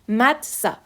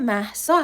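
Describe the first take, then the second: First: The middle consonant is a t sound. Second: The middle consonant is an h sound. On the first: The speaker calls it wrong. "این خونده میشه متسا" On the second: The speaker calls it right. "من اسمم مهسا هستش"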